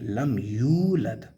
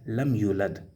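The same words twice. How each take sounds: First: The vowel after the 'y' is stretched long. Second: The vowel after the 'y' is kept short. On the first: The speaker calls it right. "it had to be stretched up to two harakas" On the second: The speaker calls it wrong. "he skips or she skips the sound of the waw"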